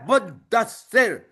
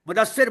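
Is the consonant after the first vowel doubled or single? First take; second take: doubled; single. First: The consonant after the first vowel is doubled. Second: The consonant after the first vowel is single. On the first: The speaker calls it right. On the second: The speaker calls it wrong.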